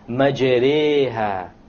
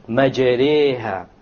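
First: The long vowel after r leans toward ee. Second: The same.

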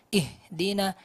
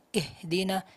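Both takes have the same delivery.

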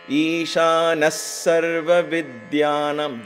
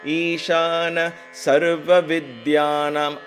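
First: The na and sa sounds are joined. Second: The na and sa sounds are separated. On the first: The speaker calls it right. "Join the na and the sa together" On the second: The speaker calls it wrong. "I've broken the na and the sa"

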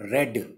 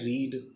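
First: The vowel is short, like in 'red'. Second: The vowel is long, like in 'reed'. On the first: It is the simple past form. "हम इसको बोलते हैं रेड" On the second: It is the present tense form. "ये होता है रीड"

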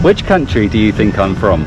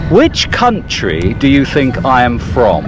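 First: It is spoken in a plain, unmarked accent. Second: It is spoken in a posh British accent.

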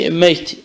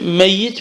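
First: The y sound is single and short. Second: The y sound is doubled and held longer. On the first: Has departed from life. "3 defa ya'nın sükûnüyle geldi" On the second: Still alive, but living in great hardship. "Bir defa da ra'nın şeddesiyle geldi"

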